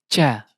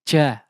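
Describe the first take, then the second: The two takes are said the same way.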